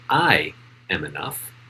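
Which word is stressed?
I. The stress is on I.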